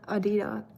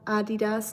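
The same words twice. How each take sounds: First: The name is said with American pronunciation. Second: The name is said with German pronunciation. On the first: The speaker calls it wrong. "not Adidas ... or whatever Americans say" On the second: The speaker calls it right. "it's called Adidas"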